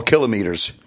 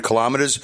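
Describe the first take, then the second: First: "kilometers" said the New York way, as KILL-o-meters; "kilometers" as two chunks, KILL-o and meters, New York fashion; New York pronunciation. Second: Said in the usual way. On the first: Shown as a demonstration. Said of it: "if you're from New York". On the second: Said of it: "or kilometers, if you're from New York".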